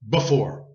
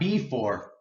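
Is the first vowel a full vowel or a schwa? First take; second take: schwa; full vowel. First: The first vowel is a quick schwa. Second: The first vowel is full and unhurried. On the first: The speaker calls it right. "We say it quickly and we use schwa" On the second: The speaker calls it wrong. "So not before"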